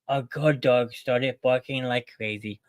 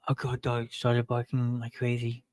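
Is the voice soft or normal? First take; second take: normal; soft. First: It is said in a normal voice. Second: It is said in a soft, soothing voice.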